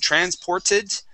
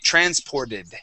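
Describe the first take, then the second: First: The consonant after 'por' is a clear T. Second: The consonant after 'por' sounds like a D. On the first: "pronouncing a T there" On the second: "we would say transported"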